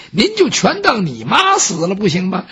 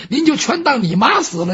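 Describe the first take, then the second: First: Suggesting. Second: Said in the usual way. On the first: Acted. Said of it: "杨忠说".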